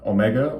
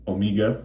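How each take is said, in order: First: It is said with an American accent. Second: It is said with a British accent.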